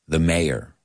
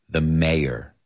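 No difference in how they are said.

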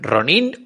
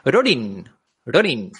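First: The word is said with non-Japanese pronunciation. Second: The word is said with Japanese pronunciation.

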